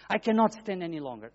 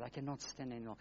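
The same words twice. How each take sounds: First: Said in the usual way. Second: Said softly, almost under the breath: "I cannot stand anymore"; a weary, hushed "I cannot stand anymore"; quiet resignation. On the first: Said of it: "That's what my, my God". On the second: Retold or imitated. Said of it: "And I said".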